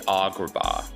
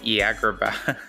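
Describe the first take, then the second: First: Every vowel is an open 'ah' sound. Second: The vowels are raised in a thick Iowa accent. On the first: "Like it's all ah, ah, ah" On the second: "my mom has a very thick Iowa accent"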